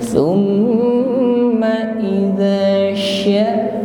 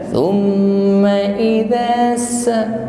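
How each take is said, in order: First: A strong, spreading sh sound is used. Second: A thin s sound is used. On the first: The speaker calls it right. "pastikan ada tafasyi" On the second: The speaker calls it wrong. "Tidak sekedar thumma idza sa, sa tipis"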